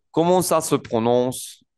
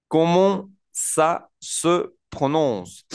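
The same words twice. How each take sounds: First: Measured pace, words linked; joined-up model. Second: Very slow, higher, words set apart. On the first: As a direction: say the whole French phrase smoothly for learners. Teacher repeats the phrase joined up. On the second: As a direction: model each French word separately for beginners. Teacher models a new French phrase. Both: Shown as a demonstration.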